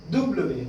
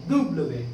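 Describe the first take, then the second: First: दुब्लवे, doo-bluh-vay, falling; French W. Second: दुब्लवे, lower, falling again; French W repeated. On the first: Teacher saying French W for students, दुब्लवे. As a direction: say दुब्लवे in three beats. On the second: Teacher repeating French W, दुब्लवे lower. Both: Shown as a demonstration. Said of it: "ये डब्ल्यू नहीं है".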